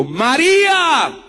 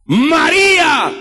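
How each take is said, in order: First: High, slow, drawn-out calling of María; Jesus calling his follower by name, slow and high; gentle call of a name. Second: Preacher voicing Jesus calling Mary, shouted. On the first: Acted. Let María ring out slowly, lightly acted. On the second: Stretch María into a full ringing shout.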